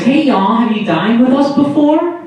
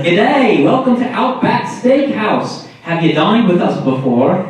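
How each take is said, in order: First: High Southern-waitress lilt, rising question; fake Southern accent. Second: Higher-pitched Aussie restaurant greeting; hammed-up Australian server welcome; mock Australian accent. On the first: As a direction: put on a fake Southern server voice. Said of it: "I assume it's fake accent". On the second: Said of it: "they're always like".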